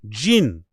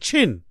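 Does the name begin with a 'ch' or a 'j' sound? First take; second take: j; ch. First: The name begins with a soft 'j' sound. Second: The name begins with a harder 'ch' sound. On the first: This is the name as the family intended it. The speaker calls it right. "I guess that's pronounced Jin" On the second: This is how people who could not say it rendered it. The speaker calls it wrong. "So they kept pronouncing it Chin"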